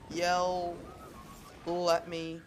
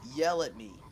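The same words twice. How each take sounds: First: The end of yell drags into the next words. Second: The word yell ends short and crisp. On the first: "drag over the end of yell into my next sentence" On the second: "if I were to say"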